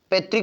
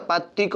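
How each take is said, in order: First: "पैतृक" with narrow e, pe-trik; wrong form demonstrated. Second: "पैतृक" with wide ai, pai-trik; correct form demonstrated. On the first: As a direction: say the first vowel of "पैतृक" as e. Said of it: "पैतृक नहीं होता". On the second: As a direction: open the first vowel of "पैतृक". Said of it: "पैतृक होता है". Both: Shown as a demonstration.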